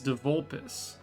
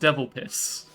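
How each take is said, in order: First: The name ends with a clear 'volpus' sound. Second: The name sounds like the words 'devil piss'. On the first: The speaker calls it right. "It's Devolpus" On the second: The speaker calls it wrong. "I was pronouncing it as Devil Piss because I thought it was funny"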